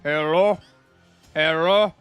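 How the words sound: It is said in a thick Russian accent. He is pretending to be someone else. "I try to do like a thick Russian accent"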